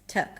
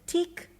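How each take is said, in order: First: The syllable has a reduced "uh" vowel. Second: The syllable has a clear "ih" vowel. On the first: The speaker calls it right. "it's tuk" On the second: The speaker calls it wrong. "you don't pronounce the tik there"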